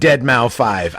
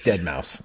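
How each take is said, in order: First: The name ends with the sounds mau five. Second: The name ends with the word mouse. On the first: "It's fucking deadmau five. I don't give a fuck" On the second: "It's Dead Mouse. I know"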